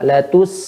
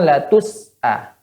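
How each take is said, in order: First: The s sound flows out smoothly. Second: The s sound is followed by a vowel. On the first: The speaker calls it right. "jelas benar-benar mengalir" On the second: The speaker calls it wrong. "Bukan latus a"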